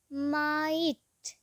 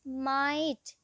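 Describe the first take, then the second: First: माइट drawn out very slowly, the आई held long; slow teacher demo of माइट with a long आई; stretched long vowel. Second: Said in the usual way. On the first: Shown as a demonstration. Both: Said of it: "long आई कैसे pronounce होता है".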